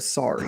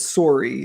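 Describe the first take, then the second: First: It is said with a standard American vowel. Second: It is said with a Canadian vowel. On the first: "instead of sorry" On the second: "he says sorry"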